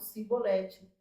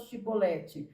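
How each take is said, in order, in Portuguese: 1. A palavra começa com som de s. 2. A palavra começa com som de sh. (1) "eles não conseguiam falar, eles falavam cibolete" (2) "Então fala a palavra chibolete"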